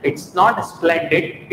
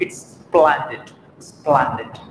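First: "splendid" as "is-plen-did"; closed e in "splendid", drawn-out demo; wrong pronunciation. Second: "splendid" as "SPLAN-did"; slow "splendid" with an open a; corrected pronunciation. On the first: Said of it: "perfect pronunciation". ("splendid" को "इस्प्लेंडिड" बोलकर) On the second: ("splendid" को धीरे "स्प्लैंडिड") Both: Shown as a demonstration.

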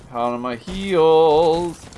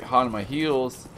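First: Heels stretched long and louder; half speed, swelling on heels; drawn-out HEELS. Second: Said in the usual way. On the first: Real, not acted. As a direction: lean hard on a long, loud "heels". Repeats phrase drawn out.

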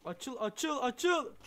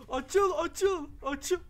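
First: Pressing the door to open, getting louder; urging it on, still holding back; urgent pleading. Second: Much higher and louder, yelling at the door; desperate yelling to make it open; frantic shout. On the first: Player urging a stuck door to open, urgent pleading. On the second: Player yelling at a stuck door, frantic shout. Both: Real, not acted.

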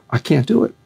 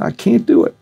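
First: Said in the usual way. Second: High-pitched Southern kid impression; Southern kid accent. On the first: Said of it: "He's a Southern kid. He said". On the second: Frightened fighter tells his trainer he can't, mock Southern accent. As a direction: retell it in a much higher Southern voice. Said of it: "He's a Southern kid".

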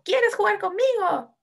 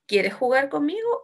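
First: High, slow exclamation falling on "conmigo"; exclamación. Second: Asking, "conmigo" climbing at the end; entonación de pregunta. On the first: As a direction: exclaim it from a high start on "Quieres". (exclamación aguda, "conmigo" cae al final) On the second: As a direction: ask it with a clear rise on "conmigo". (pregunta, "conmigo" sube al final) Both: Shown as a demonstration. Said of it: "una exclamación o una pregunta".

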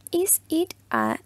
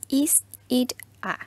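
First: Higher slow model. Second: Whispered model. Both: Shown as a demonstration. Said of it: "Otra pregunta que les había presentado".

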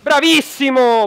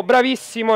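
First: Slow, loud, drawn-out cheer; excited praise. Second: Said in the usual way. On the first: Real, not acted. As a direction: stretch it out like a big cheer. Teammate wins a one v two.

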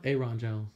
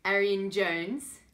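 First: Aaron said as AIR-on, two syllables; Aaron Jones, cleanly, in two syllables; correct pronunciation. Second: Arian said as AIR-ee-an, drawn out; wrong pronunciation. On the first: Shown as a demonstration. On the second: Real, not acted. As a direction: Arian Jones, slow, with an extra syllable.

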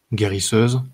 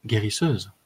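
First: "Guérisseuse" echoed with rising tune; questioning echo. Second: "guérisseuse" as a calm closing statement; falling statement. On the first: Warrior querying her claim, "Guérisseuse" rising. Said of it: "releva-t-il". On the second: Woman naming her calling, "guérisseuse" falling. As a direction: let "guérisseuse" fall at the end. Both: A narrator's reading.

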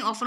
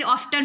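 First: ऑफन with no t, f running straight into -न; correct reading, silent t. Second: ऑफ्टन with a clear t sound in the middle; wrong reading with t. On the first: Teacher corrects students to ऑफन, t silent. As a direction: say ऑफन, leaving out the t. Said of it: "ऑफ्टन नहीं ऑफन हो जाएगा". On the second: Teacher shows the common wrong reading ऑफ्टन with t. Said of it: "कुछ लोग इसे ऑफ्टन पढ़ते हैं". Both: Shown as a demonstration.

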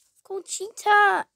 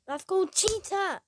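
First: "cheater" hit louder and sharper; louder insistent repeat. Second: Said in the usual way. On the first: Shown as a demonstration. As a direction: drive the word "cheater" home.

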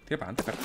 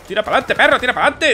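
First: Lower, much softer grumble; muttered order. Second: High, louder push forward; yelling orders. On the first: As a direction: mutter it under your breath. Muttered at teammate. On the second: Player yelling at his teammate to move, loud. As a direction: bark at the dog of a soldier. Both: Real, not acted.

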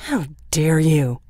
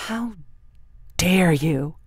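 First: Slow, louder, spitting each word; spat. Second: Angry. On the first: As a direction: spit it at her in contempt. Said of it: "he spat at her". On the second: Son's anger breaks out. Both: A narrator's reading.

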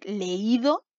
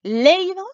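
First: Leído with the middle í held and leaned on; le-Í-do, slowly tested; stress on the í. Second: Leído punched high and loud on "le"; LÉ-i-do, loud front-stressed test; wrong stress, first syllable. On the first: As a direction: put the weight on "í" in leído. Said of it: "cuando cargué mi voz justo en la I". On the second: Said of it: "¿Sonará bien". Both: Shown as a demonstration.

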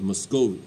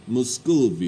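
First: Said in the usual way. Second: Russian accent. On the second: Shown as a demonstration. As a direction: give Muscovy a hammed-up Russian accent. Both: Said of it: "You have to say it with Russian accent".

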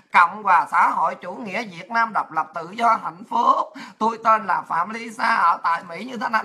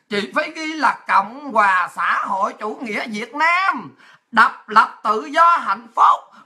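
First: Low recital with no line breaks; run-on essay recital. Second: Drawn-out heading, phrase by phrase; slow formal dictation. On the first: Lisa writing it like one long essay, low run-on recital. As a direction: run the heading straight into the name, lower. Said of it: "ghi giống như là Lisa mà ghi một bài luận văn". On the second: Officer showing Lisa how to write it, slow formal dictation. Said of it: "phải xuống hàng đàng hoàng chứ". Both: Retold or imitated.

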